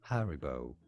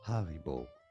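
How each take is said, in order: First: It is said in a British English accent. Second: It is said in a German accent.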